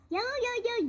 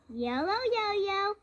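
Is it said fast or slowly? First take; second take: fast; slowly. First: It is said very fast. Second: It is said slowly.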